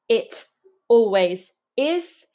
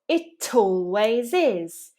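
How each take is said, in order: First: The words are kept apart without a linking y. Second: The words are joined by a small y sound. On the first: The speaker calls it wrong. "Instead of saying it always is" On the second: The speaker calls it right. "typically we say it always is"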